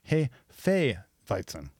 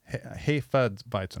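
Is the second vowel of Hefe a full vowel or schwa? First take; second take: full vowel; schwa. First: The second e of Hefe is a full vowel. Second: The second e of Hefe is a dull schwa. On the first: The speaker calls it right. "the latter e is always pronounced as you would, as you make a point to in the first syllable. So really, it should be something like Hefeweizen" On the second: The speaker calls it wrong. "our English-speaking tendency to make unstressed vowels into schwas, the sort of dull sound, forces you to say something like Hefeweizen"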